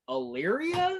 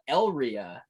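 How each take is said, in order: First: The name is said as Illyria. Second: The name is said as Elria. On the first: The speaker calls it right. "oh, that's how it's pronounced" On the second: The speaker calls it wrong. "normally we stay in uh"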